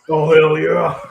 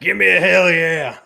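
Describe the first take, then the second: First: Loud, higher laughing wrestler yell; Stone Cold impression. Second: Loud, higher shout for a catchphrase; host egging on a co-host's wrestling impression, loud and higher; hype call. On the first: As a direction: roar it like a pro wrestler on the mic. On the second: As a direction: whip up the crowd. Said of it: "Stone Cold impression".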